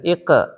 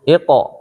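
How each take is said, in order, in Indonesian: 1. Huruf iq dibunyikan tipis dan ringan. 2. Huruf iq dibunyikan tebal dan penuh. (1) "jangan ike" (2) "Ini iko biasa"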